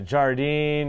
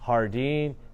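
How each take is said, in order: First: The name begins with a J sound. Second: The name begins with an H sound. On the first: The speaker calls it wrong. "I called it Jardine" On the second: The speaker calls it right. "the real pronunciation"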